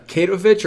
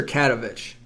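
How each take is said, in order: First: "Katovich" said as KAY-toe-vitch; first guess at "Katovich", KAY-toe-vitch; trying a pronunciation. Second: "Katovich" said as CAT-uh-vitch; second guess at "Katovich", CAT-uh-vitch; trying a pronunciation. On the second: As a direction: open "Katovich" with a short CAT, then uh-vitch. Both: Shown as a demonstration. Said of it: "Kevin, what is it?".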